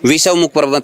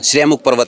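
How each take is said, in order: First: The name begins with a 'vish' sound. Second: The name begins with a 'shre' sound. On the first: The speaker calls it wrong. "विषवमुख पर्वत नहीं हो" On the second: The speaker calls it right. "श्रेमुख पर्वत है वो"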